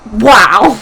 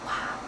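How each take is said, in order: First: The wow sounds genuinely amazed and sincere. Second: The wow sounds sarcastic and unimpressed. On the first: The person is truly impressed. The speaker calls it right. "more like" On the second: The person is not really impressed. The speaker calls it wrong. "but less sarcastic"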